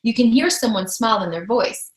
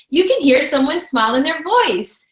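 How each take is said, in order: First: Said in the usual way. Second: Higher, lilting, with an audible smile; smiling voice. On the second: Shown as a demonstration. Coach showing how a smile carries by phone, smiling voice. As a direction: let them hear you smile. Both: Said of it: "Do you see and hear the difference?".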